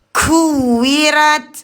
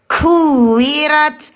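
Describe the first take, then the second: No difference in how they are said.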